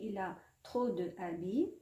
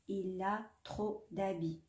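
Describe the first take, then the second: First: The vowel of 'de' is kept before 'habits'. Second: The vowel of 'de' is dropped before 'habits'. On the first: The speaker calls it wrong. "si je dis il a trop de habits ماشي شباب" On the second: The speaker calls it right. "on pratique l'illusion"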